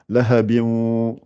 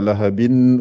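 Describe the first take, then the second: First: The final n sound is dropped and merged. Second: The final n sound is pronounced clearly. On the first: The speaker calls it right. "on dit lahabin. Donc, on supprime le noun" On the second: The speaker calls it wrong. "on ne dit pas lahabin"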